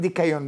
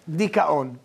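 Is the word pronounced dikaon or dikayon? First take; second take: dikayon; dikaon. First: The word is pronounced dikayon, with a y sound. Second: The word is pronounced dikaon, without a y sound. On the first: The speaker calls it wrong. "אין מילה כזאת דיקיון. לא אומרים דיקיון בעברית" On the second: The speaker calls it right.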